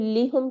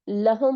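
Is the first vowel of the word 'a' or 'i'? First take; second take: i; a. First: The first vowel is 'i'. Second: The first vowel is 'a'. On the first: The speaker calls it wrong. "लिहुम के बजाय" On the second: The speaker calls it right. "लहुम होता है"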